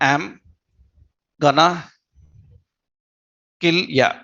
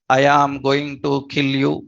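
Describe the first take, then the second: First: The words are contracted and run together. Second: Every word is said fully and separately. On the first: This is how native speakers casually say it. "That is their their pronunciation" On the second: This is the textbook form learned at school. "for you who learned school level English"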